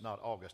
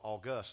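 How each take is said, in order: First: The stress is on the first syllable. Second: The stress is on the last syllable. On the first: It names the calendar month. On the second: It means majestic or grand. "We're putting the emphasis on the last syllable"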